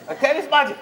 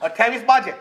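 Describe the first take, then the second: First: અઠ્યાવીસ બાજે pitched higher for emphasis; emphatic અઠ્યાવીસ બાજે; stress on અઠ્યાવીસ બાજે. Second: Said in the usual way. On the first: Shown as a demonstration. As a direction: lift અઠ્યાવીસ બાજે up high. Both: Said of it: "વાણિયા કોઈ દાડો બાજે નહીં".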